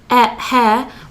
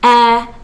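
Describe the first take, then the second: First: It starts with a breathy H sound. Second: It starts directly with the vowel. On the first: The speaker calls it wrong. "we're not saying hour here or hair" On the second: The speaker calls it right. "we're saying air"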